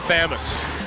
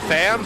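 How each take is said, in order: First: It is said with the middle vowel. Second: It is said without the middle vowel. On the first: "I just like to say Thamus" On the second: "We tried to just not say the U"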